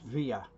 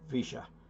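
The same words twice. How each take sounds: First: It is said the usual Spanish way. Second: It is said the Argentine way.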